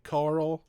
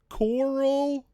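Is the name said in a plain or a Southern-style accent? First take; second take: plain; Southern. First: The name is said plainly as one syllable. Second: The name is drawn out in a Southern accent.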